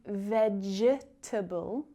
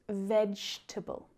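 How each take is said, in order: First: The silent E is pronounced as a vowel. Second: The silent E is not pronounced at all. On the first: The speaker calls it wrong. "You don't hear me say vegetable" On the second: The speaker calls it right. "just vegetable"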